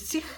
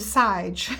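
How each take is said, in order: First: The name is said with a long ee vowel. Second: The name is said like the word sage. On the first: The speaker calls it right. "but you pronounce it as Sich or Siege" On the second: The speaker calls it wrong. "you probably go Sage"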